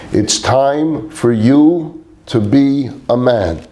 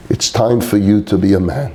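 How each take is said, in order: First: Slow, deliberate, every word weighted; said more forcefully. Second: Said in the usual way. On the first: Retold or imitated. Father pressing his son to grow up, slow and forceful. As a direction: lean hard on each word, slowly. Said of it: "as he said it more forcefully".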